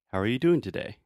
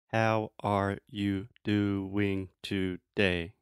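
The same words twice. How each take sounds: First: Syllables run together with reductions and varied pitch. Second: Each syllable is said separately and evenly. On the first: The speaker calls it right. "most native speakers would say... the intonation goes up and down" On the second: The speaker calls it wrong. "you're saying each syllable separately and each syllable as a clear thought, that sounds ridiculous. It sounds like a robot"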